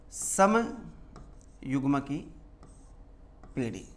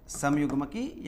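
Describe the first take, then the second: First: समयुग्म की drawn out very slowly, syllable by syllable; term spelled out slowly. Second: Said in the usual way. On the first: Shown as a demonstration. Teacher introducing a new term to the class, drawn out very slowly. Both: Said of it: "next जो term use की".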